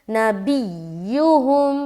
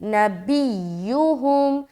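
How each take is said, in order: No difference in how they are said.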